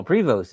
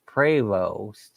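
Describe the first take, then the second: First: "Prevost" said as PREE-vost; spelling pronunciation. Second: "Prevost" said slowly as PRAY-vost; corrected pronunciation. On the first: Reading a name from the chat, "Prevost" as PREE-vost. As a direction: say "Prevost" with "ee" and a sounded st. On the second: Passing on the chat's correction, "Prevost" as PRAY-vost. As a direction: say "Prevost" with "ay" in the first syllable. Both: Shown as a demonstration. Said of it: "Prevost is pronounced Prevost".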